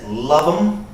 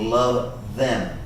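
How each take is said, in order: First: The second word is reduced to a short 'em'. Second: The second word is a full 'them' with th. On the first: "She says love them" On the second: "instead of saying love them"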